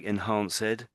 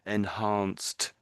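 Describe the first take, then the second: First: The ending is said as a separate 'ed' syllable. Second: The ending has no separate 'ed' syllable. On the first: The speaker calls it wrong. "it's not ed because you're saying enva I think saying something like enhanced. It's not quite that" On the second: The speaker calls it right. "It's enhanced"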